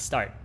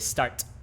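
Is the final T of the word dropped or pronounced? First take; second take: dropped; pronounced. First: The final T sound is dropped. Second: The final T sound is clearly pronounced. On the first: The speaker calls it right. "you don't pronounce the last T" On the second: The speaker calls it wrong. "You don't say start"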